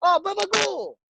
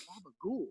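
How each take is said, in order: First: Mock Italian-American curse. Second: Quiet echo. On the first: Customer cursing the cook who blocked him, mock outburst. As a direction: imitate an indignant customer cursing, pitched way up. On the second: Retold or imitated. Storyteller echoing the customer's curse, quiet aside. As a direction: drop it right down, almost to yourself.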